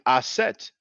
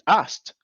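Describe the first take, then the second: First: A vowel is heard between the s and t. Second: No vowel is heard between the s and t. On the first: "add the letter e between two consonants" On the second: "Others pronounce it Ast"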